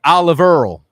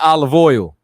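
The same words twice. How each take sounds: First: OLIVE EARL, the oil said as earl; Brooklynese pronunciation. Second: Said in the usual way. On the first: Shown as a demonstration. Giving viewers an example of Brooklynese, dialect pronunciation. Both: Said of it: "It's not olive oil".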